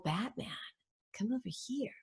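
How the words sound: It is said seductively, in a soft alluring voice.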